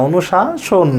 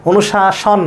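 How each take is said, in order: First: অনুশাসন ending in round "-shon"; "onu-shaa-shon", the version to keep; correct pronunciation. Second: অনুশাসন ending in open "-shawn"; "onu-shaa-shawn", the version to reject; wrong pronunciation. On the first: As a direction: say অনুশাসন with a closed o last. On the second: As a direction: say অনুশাসন with an open last vowel. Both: Shown as a demonstration. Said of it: "অনুশাসন না".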